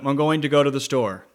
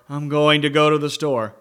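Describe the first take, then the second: First: The loudness stays flat and even throughout. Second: It starts soft and breathy, grows loud, then fades. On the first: The speaker calls it wrong. "Gives it more than" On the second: The speaker calls it right. "by speaking softly with a little air in your voice, removing the air, and then going to volume and then coming back down"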